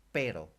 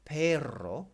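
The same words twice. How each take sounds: First: "pero" with a single short tapped R. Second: "perro" with a loud, rolled double R. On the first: Teacher showing learners the word for but, "pero" with one light R. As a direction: say "pero" with just one R, unrolled. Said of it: "Just one R". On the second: Teacher showing learners the word for dog, "perro" with rolled R. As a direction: trill the R in "perro", higher and louder. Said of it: "it's got two R's in it". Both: Shown as a demonstration.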